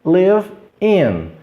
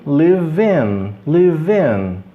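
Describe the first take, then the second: First: Palavras separadas. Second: "live in" joined as li-vin; V ligado ao I. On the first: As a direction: pause between "Live" and "in". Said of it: "unindo as palavras". ("Live" e "in" separados) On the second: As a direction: carry the V of "live" into "in". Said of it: "V com I". ("live in" ligado, li-vin) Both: Shown as a demonstration.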